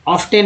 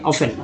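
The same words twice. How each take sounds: First: "ऑफ्टन" with the T sounded, off-TEN; the wrong reading "ऑफ्टन", T audible; often with T. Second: "ऑफ्टन" said as OFF-en, no T; "ऑफ्टन" with F running straight into -en; often, silent T. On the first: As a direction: pronounce the T in "ऑफ्टन". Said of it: "ऑफ्टन नहीं बोलेंगे". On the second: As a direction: drop the T in "ऑफ्टन". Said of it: "टी ही silent हो जाता है". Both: Shown as a demonstration.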